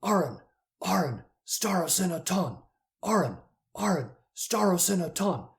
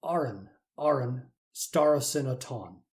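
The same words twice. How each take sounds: First: "Aron, Aron, starosinaton" chanted in rhythm, higher; riot chant. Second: "Aron, Aron, starosinaton" read slowly, each syllable clear; Greek read slowly. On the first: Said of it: "they're chanting like at a riot". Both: Shown as a demonstration.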